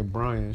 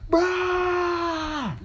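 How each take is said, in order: First: The name is said in a calm, normal voice. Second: The name is yelled loudly and sharply. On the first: The name is only being used to address someone. "she don't say Brian" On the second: Someone is in trouble. "She be like"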